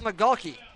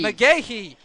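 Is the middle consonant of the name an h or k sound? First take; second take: k sound; h sound. First: The name is said with a k sound. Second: The name is said with an h sound. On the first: The speaker calls it wrong. "you absolutely butchered his last name" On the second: The speaker calls it right. "It's McGahee"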